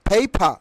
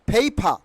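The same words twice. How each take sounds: The two takes are said the same way.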